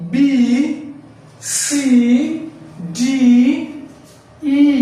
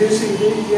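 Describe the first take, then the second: First: Each letter is said separately with emphasis. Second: The letters are rattled off quickly together. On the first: The speaker calls it right. "প্রত্যেকটা একটু জোর দিয়ে বলবেন" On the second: The speaker calls it wrong. "দ্রুত বলতাম"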